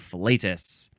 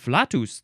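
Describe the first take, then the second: First: It is pronounced in the American English style. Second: It is pronounced in the Latin style. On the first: The speaker calls it right. "here in American English we must say flatus" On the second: The speaker calls it wrong. "That's the Latin way to say it"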